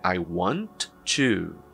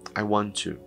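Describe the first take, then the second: First: Each T sound is pronounced separately. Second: The two T sounds merge into one. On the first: "na realidade é I want to" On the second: "Perceba que eu falei I want to"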